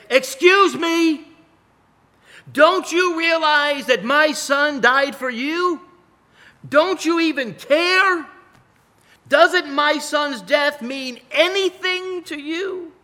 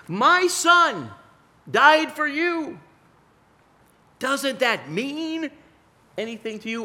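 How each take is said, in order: First: Much higher, louder, slow indignant cry; outraged outburst. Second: God pleading. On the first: Grieving father confronting a careless crowd, loud indignant outcry. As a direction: jump up and demand they care. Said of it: "I would want to jump up and say". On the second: God asking his people whether his son's death matters, pleading. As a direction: plead as a grieving father. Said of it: "what God wants to say to us". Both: Pretend.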